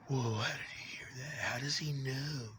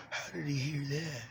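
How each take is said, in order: First: Mock whisper. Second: Said in the usual way. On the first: Imitating the voices whispering about him. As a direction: whisper it like an eavesdropper.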